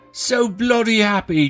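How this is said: It is said in a British accent.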